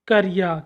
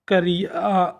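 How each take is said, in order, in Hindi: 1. शब्द सामान्य गति में जल्दी से बोला गया है। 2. शब्द धीरे से, खींचकर बोला गया है। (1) "इसके शुद्ध उच्चारण देखा" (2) "हमने इसको धीरे धीरे बोला"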